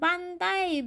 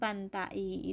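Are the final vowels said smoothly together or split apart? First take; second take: smooth; split. First: The final vowels glide together without a break. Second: The final vowels are split with a break. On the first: The speaker calls it right. "Cara membacanya dibaca langsung, tidak ada jeda" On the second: The speaker calls it wrong.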